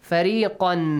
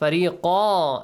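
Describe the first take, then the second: First: The word ends with an n sound. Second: The word ends with a long vowel. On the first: The reading continues without stopping. "here you don't have to stop" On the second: The reader stops after the word. "If you stop"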